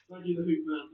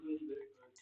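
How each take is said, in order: First: Said in the usual way. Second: Quieter, lower repeat of "Thank you, the Hoop Man"; soft repeat. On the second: Real, not acted. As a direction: murmur the thanks again.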